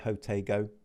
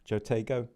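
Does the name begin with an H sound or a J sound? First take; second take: H sound; J sound. First: The name begins with an H sound. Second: The name begins with a J sound. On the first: The speaker calls it right. "It's probably Hotego" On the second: The speaker calls it wrong. "apologies for saying this wrong"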